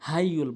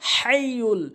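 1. h হলো একটি হালকা, শ্বাসযুক্ত ধ্বনি। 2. h হলো গলা থেকে আসা একটি টানটান ধ্বনি। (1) "ছোট হার বড় হার জায়গায় ছোট হাইনে উচ্চারণ করে" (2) "বলতে হবে হাইয়ুল, হলকের মাঝখান থেকে"

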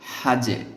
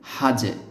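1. শেষ ব্যঞ্জনবর্ণটি একটি ছোট প্রতিধ্বনিত ঝাঁকুনি দিয়ে শেষ হয়। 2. শেষ ব্যঞ্জনবর্ণটি একটি ছোট প্রতিধ্বনিত ঝাঁকুনি দিয়ে শেষ হয়।

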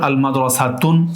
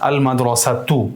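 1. শব্দটি n ধ্বনি দিয়ে শেষ হয়। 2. শব্দটি স্বরধ্বনি দিয়ে শেষ হয়। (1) "তাহলে ভুল হবে" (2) "আপনাকে বলতে হবে আল মাদ্রাসাতু"

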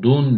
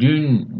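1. Ünlü saf bir arka u sesidir. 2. Ünlü saf bir ön ü sesidir. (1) "dun de değil" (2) "dün değil"

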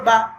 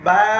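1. স্বরটি ছোট ও দ্রুত করে কেটে বলা হয়। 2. স্বরটি টেনে দীর্ঘ করে বলা হয়। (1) "তাড়াতাড়ি বলছিলাম।" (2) "লম্বা করে বললাম।"

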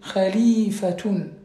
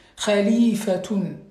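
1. Le mot finit par -atun, avec un son t. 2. Le mot finit par -atun, avec un son t.

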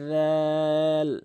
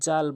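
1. স্বরটি তিন মাত্রা পর্যন্ত টানা হয়। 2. স্বরটি ছোট, টেনে বলা হয় না। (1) "তিন আলিফ টেনে র্যাল" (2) "জাল বলবেন না"

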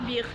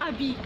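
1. ينتهي الاسم بصوت ساكن في الآخر. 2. ينتهي الاسم بحرف علة، وقد سقط الساكن الأخير. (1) "ابيغ ماشي ابي" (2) "ماشي ابي"

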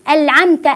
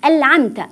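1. النون تُنطق لامًا. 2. النون تُنطق لامًا.

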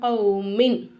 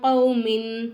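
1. இறுதி ன் மூக்கொலி இல்லாமல் தெளிவாக ஒலிக்கப்படும். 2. இறுதி ன் மறைந்து மூக்கொலியுடன் ஒலிக்கப்படும். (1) "வெளிப்படுத்தி குன்னா செய்யாமல் ஓதணும்" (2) "நூனே சாக்கினை மூக்கால மறைச்சி குன்னா செஞ்சு ஓதணும்"

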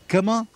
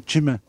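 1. الكلمة تبدأ بصوت k. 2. الكلمة تبدأ بصوت ch. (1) "ايه كما" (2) "تشما تشما بس انت مشان تفهم"

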